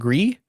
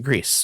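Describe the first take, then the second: First: The word ends without an S sound. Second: The word ends with an S sound.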